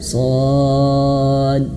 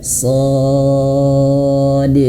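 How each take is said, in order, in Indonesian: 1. Pantulan d di akhir samar dan hampir tidak terdengar. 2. Pantulan d di akhir jelas dan tegas. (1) "Jangan kurang kedengeran" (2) "Jelas dan enam ketukan"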